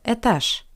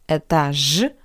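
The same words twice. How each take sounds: First: The final consonant is a voiceless sh sound. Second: The final consonant is a voiced zh sound. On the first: The speaker calls it right. "but этаж" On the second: The speaker calls it wrong. "Not этаж"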